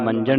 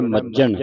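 First: ਮੰਜਣ with an n before the j; wrong nasal sound. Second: ਮੱਜਣ with a held double j, no n before it; tight doubled j. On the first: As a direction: say ਮੰਜਣ as "manjan". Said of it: "ਇਹਨੂੰ ਮੰਜਣ ਨਹੀਂ ਪੜ੍ਹਨਾ". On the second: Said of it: "ਅਧਿਕ ਲਾ ਕੇ ਬੋਲਣਾ ਹੈ". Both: Shown as a demonstration.

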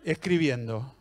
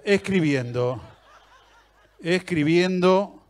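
First: Said in the usual way. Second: Escribiendo stretched out slowly, laughing; mock the endless typing wait; slow drawn-out. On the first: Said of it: "te ponen escribiendo". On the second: Shown as a demonstration.

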